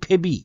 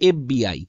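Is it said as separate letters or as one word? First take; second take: one word; letters. First: It is spoken as one blended word. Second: It is spoken as three separate letters. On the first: The speaker calls it wrong. "আমরা তো একবারে বলি না যে ফেবি" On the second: The speaker calls it right. "যেমন ধরো বলা হলো এফবিআই"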